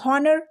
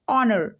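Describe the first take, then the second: First: The word starts with an audible H sound. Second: The word starts with a vowel, no H sound. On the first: The speaker calls it wrong. "अभी तक सब लोग क्या पढ़ते होंगे इसको" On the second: The speaker calls it right. "लेकिन ये होता है ऑनर"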